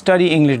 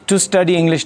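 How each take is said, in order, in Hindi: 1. शब्द 'to' छोड़ दिया जाता है या बहुत कम सुनाई देता है। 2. शब्द 'to' साफ़ और पूरा बोला जाता है। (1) "study English डायरेक्ट पढ़ते हैं" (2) "टू स्टडी इंग्लिश नहीं पढ़ते"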